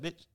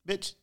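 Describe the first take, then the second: First: It sounds tossed off casually, not as an insult. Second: It sounds aimed at someone as an insult.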